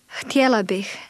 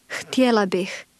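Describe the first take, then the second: No difference in how they are said.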